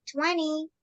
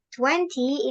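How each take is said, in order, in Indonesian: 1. T kedua dihilangkan. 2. T kedua diucapkan.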